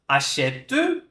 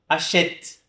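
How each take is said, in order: First: The final e is pronounced as a vowel. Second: The final e is silent; it ends on t. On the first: The speaker calls it wrong. "Eu não vou falar achete" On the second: The speaker calls it right. "Como se eu não pronunciasse essa letra E"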